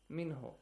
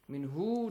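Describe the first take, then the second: First: The final vowel is kept short. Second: The final vowel is drawn out long. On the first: The speaker calls it right. "that's easy" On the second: The speaker calls it wrong. "you don't have to, for example, straight the sound of ha here. Min hu, don't say"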